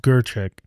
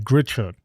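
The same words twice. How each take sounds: First: Gerchek spoken as GER-chek, not as it is spelled; correct pronunciation. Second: Said in the usual way. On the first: Shown as a demonstration. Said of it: "but it's pronounced Gerchek". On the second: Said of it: "It's spelled like Grichuk".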